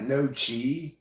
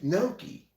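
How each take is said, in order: First: The second syllable starts with a ch sound. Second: The second syllable starts with a k sound. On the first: The speaker calls it wrong. "It's not no chi" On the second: The speaker calls it right. "It's gnocchi"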